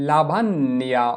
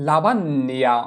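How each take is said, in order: The two takes are said the same way.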